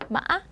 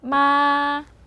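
First: The tone is tense with a sharp bounce. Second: The tone stays high, level and long. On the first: "목에 힘을 주시고 딱 튕기는 소리예요" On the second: "높고 길게 해서 마 이렇게 발음해주시면 돼요"

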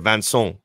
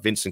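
First: The name is said with a French accent. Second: The name is said with an English accent. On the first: "in his native accent, you should say" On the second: "says his name anglicized"

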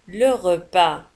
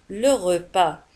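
No difference in how they are said.

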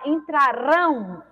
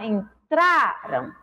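First: The stress is on the last syllable. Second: The stress is on the second-to-last syllable. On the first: The action will happen in the future. "o rão, é mais forte, que é a última sílaba" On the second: The action has already happened. "o tra é mais forte"

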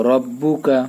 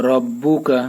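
Both takes have the same delivery.

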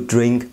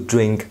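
The two takes are said the same way.

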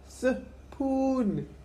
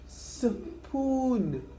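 First: The word begins with an 's' sound. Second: The word begins with an 's' sound.

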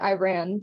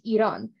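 First: It is said with an anglicized English pronunciation. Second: It is said with the native Persian pronunciation. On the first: "in the English version of it, a lot of people pronounce it" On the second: "the way you pronounce it in the Iranian language"

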